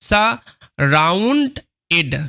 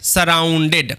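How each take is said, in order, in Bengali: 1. শব্দটি আলাদা আলাদা অংশে ভাঙা হয়েছে। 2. শব্দটি মসৃণভাবে একটি এককের মতো বলা হয়েছে।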